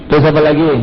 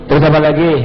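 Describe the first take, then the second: The two takes are said the same way.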